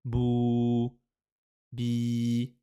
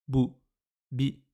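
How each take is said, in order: First: BOU and BI with long held vowels; long, sustained Bou, bi on level notes; prolonged vowels. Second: BOU and BI as brief, separate syllables; quick, unprolonged bou, bi; short vowels. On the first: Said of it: "la prolongation". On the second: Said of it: "c'est un son bref". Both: Shown as a demonstration.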